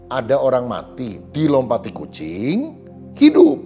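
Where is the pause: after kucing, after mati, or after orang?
after kucing. A pause falls after the word kucing. A dead person came back to life after a cat jumped over them. "ini mujizat namanya"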